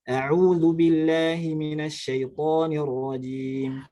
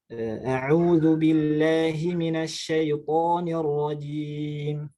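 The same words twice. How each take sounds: First: It is recited at a fast tempo. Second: It is recited at a moderate tempo. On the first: "misalkan cepat" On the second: "bacaan yang sedang"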